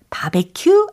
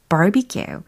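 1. 한국 외래어 소리로 발음합니다. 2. 영어 소리로 발음합니다. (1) "바베큐 아니고" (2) "barbecue라고 발음하시면 되겠어요"

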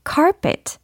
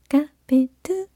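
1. 영어 발음으로, t로 끝나게 발음해요. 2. 한국어 외래어 ka-pe-teu처럼 발음해요. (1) "carpet 이렇게 발음을 해주셔야 되겠습니다" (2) "카페트 땡 아니고"

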